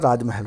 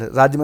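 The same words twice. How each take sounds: First: राजमहल with the h sounded, raaj-ma-hel; correct form. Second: राजमहल squeezed to raaj-mal, loud; wrong form. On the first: Teacher giving students the right word, h sounded in राजमहल. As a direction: open out the end of राजमहल as ma-hel. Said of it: "राजमहल होता है". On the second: Teacher quoting the misspelling, loud squeezed राजमहल. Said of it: "राजमहल नहीं होता". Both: Shown as a demonstration.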